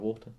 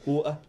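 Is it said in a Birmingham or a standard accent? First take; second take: standard; Birmingham. First: It is said in a standard accent. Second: It is said in her Birmingham accent.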